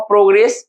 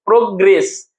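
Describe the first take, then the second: First: Said in the usual way. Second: प्रोग्रेस in two parts, pro, gress; प्रोग्रेस carefully syllable by syllable; pronunciation demo. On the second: Shown as a demonstration. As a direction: split प्रोग्रेस after a long "pro". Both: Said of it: "हम लोग कहते हैं".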